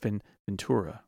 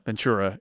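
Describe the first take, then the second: First: The t is pronounced as a crisp t. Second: The t sounds like a ch sound. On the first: This is how it is said on the radio. "And in radio voice, it's Ventura" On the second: This is how it is said in real life. "Ventura is probably what I would say"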